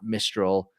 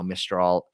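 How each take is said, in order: First: The name is pronounced the English way. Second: The name is pronounced the French way. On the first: The speaker calls it wrong. "It's not" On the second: The speaker calls it right. "I'm going to pronounce that correctly now"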